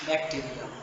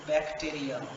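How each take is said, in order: No difference in how they are said.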